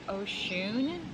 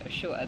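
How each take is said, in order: First: The name ends with an n sound. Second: The name ends with a vowel sound. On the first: This is how most cultures say it. "in most cultures, it's pronounced Oshun" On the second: This is how the other person says it. "pronounced Oshua, the way you're pronouncing it"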